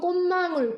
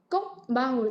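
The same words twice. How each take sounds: First: The first syllable ends in a nasal sound. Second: The first syllable ends in a stop sound. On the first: The speaker calls it right. "이거 비음화가 다 일어나요" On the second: The speaker calls it wrong. "이렇게 안 하잖아요"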